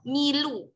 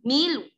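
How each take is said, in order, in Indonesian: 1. Vokal akhirnya bersuara penuh. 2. Vokal akhirnya hanya bersuara samar. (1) "menyuarakan seratus persen harokatnya" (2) "harus ada sepertiga dari harokat yang kita baca"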